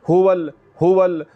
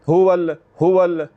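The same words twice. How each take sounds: No difference in how they are said.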